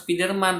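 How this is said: It is said with an Indonesian accent. "Kalau orang barat enggak, bukan bukan Spiderman"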